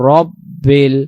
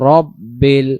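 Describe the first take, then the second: No difference in how they are said.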